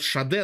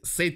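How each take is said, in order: First: The name is said like 'Shah-deh'. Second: The name is said like 'Sayd'. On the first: This is how it is called locally. "у нас ее называют [name]" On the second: This is the English pronunciation. "по-английски"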